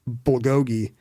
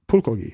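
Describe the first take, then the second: First: The word begins with a voiced B sound. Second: The word begins with a P-like sound. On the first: This is how Americans say it. The speaker calls it wrong. "Americans are always saying bulgogi" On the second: This is closer to how Koreans say it. The speaker calls it right. "it's really closer to pulkogi, like it's closer to a P"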